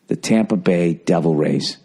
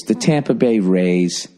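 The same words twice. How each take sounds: First: "The Tampa Bay Devil Rays" said slowly and low, leaning on "Devil"; four-beat rhythm. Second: "the Tampa Bay Rays" said slowly, beat by beat, low; waltz-like rhythm. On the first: Host contrasting the old team name's rhythm, slow and deliberate. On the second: Host showing the name's rhythm to listeners, slow and measured. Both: Shown as a demonstration. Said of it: "Two syllables".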